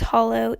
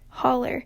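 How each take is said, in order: First: The word ends with an 'oh' sound. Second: The word ends with an 'er' sound. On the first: This is the Tampa way of saying it. "those in Tampa do not do this" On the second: This is the eastern Kentucky way of saying it. "with an er at the end like holler"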